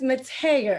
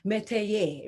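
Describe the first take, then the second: First: The name is pronounced the English way. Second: The name is pronounced the French way. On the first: "but it's Mateer, as I understand" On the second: "I pronounce it a little bit more Frenchy"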